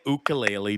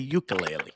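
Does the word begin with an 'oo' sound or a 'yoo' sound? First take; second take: oo; yoo. First: The word begins with a plain 'oo' sound. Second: The word begins with a 'yoo' sound. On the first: The speaker calls it wrong. "we don't say ukulele" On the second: The speaker calls it right. "We say ukulele"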